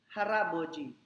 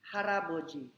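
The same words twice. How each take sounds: Both takes have the same delivery.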